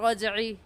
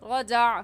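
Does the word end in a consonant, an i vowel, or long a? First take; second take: i vowel; long a. First: The word ends on an i vowel. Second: The word ends on a long a vowel. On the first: "गलत" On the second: "गलत"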